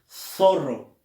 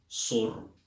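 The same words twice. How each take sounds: First: The first sound is a 'th' sound. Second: The first sound is an 's' sound. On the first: "tampoco dices zorro" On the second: "sino tú dices"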